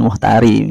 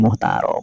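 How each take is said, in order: First: The vowel before the final consonant is 'i'. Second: The vowel before the final consonant is 'a'. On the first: The speaker calls it wrong. "Itu bukan muhtari" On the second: The speaker calls it right. "tapi muhtarob"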